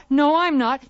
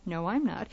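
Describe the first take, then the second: First: Loud. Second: Quiet. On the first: Loud take of repeated line. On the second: Quiet take of repeated line. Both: Shown as a demonstration.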